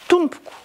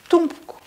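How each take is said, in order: Both takes have the same delivery.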